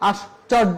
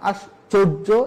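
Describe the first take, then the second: First: It is said without an added o sound. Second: It is said with an added o sound. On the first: The speaker calls it wrong. "আশ্চর্য না" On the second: The speaker calls it right. "এভাবে উচ্চারণ করতে হবে"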